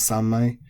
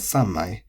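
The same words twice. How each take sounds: First: Sanmai with no pitch drop; flat variant. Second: Sanmai with a pitch drop after san; accent the san in sanmai; accented variant. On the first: Teacher showing the exception form, flat sanmai. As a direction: keep sanmai level to the end. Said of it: "can also be said as". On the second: Teacher showing one of two accepted forms, accented sanmai. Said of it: "even with sang". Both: Shown as a demonstration.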